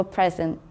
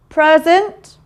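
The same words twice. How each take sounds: First: "present" with the open vowel of head; short "e" vowel. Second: "present" mispronounced as "prurzent"; wrong "er" vowel. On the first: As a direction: say "present" as "prez-unt". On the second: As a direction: put the vowel of "her" into "present". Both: Shown as a demonstration. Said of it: "Of course, it's the E".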